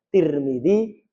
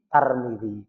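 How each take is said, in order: First: The first syllable has the vowel i. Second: The first syllable has the vowel a. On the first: This is the usual reading among Middle Eastern scholars. "kebanyakan masyaikh yang di Timur Tengah yang sering saya dengar seringnya nyebutnya Tirmidzi" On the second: This is the usual reading in Malaysia. "Malaysia ngambil Tarmidzi"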